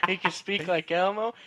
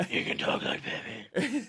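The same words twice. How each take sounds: First: High-pitched puppet voice, lightly done; Elmo. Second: Rough whispered superhero rasp; Batman. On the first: Co-host demonstrating his friend's weird vocal range, mock puppet voice. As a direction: lift it high like a little puppet. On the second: Co-host demonstrating his friend's weird vocal range, mock superhero rasp. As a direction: rasp it out without full voice, hammed-up hero. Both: Acted.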